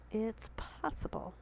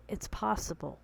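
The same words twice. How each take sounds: First: Soft, slow whisper to herself. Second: Said in the usual way. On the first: Real, not acted. To viewers, repeating it in a slow whisper. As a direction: breathe it out like a private reassurance.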